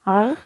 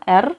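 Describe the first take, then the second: First: The R is made back in the throat. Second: The R is made at the front of the mouth. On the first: "ada yang di kerongkongan gitu" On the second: "benar-benar R di depan"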